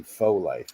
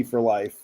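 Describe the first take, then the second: First: "Faux Life", first word rhyming with go; "Faux" without r. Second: "for life", the r sounded in "for". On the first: Host corrects the group's name, "Faux" said as foh. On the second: Host names the H V A C group, r sounded in "for". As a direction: say "for" fully, ending on r. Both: Shown as a demonstration. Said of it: "it's actually Faux Life".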